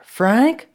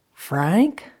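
First: High, loud rising shout of a name; insistent raised call; louder calling. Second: Raised questioning call; tentative call with a high rising end. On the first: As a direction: shout through the door to get an answer. Louder try after knocking. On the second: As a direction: call his name through a door, voice rising. Calling through the closed door. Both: Acted.

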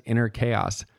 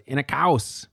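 First: Said in the usual way. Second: Imitated German accent, raised pitch. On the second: Winnicott quotes his supervisor's way of saying it, mock German accent. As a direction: mimic her German-accented English, pitched up. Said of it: "the way that she does".

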